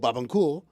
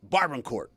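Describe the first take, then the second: First: The name is said the precise Haitian way. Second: The name is said the plain anglicized way. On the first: The speaker sounds pretentious. "pronounce it basically like an asshole" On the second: The speaker sounds ignorant. "pronounce it like an idiot"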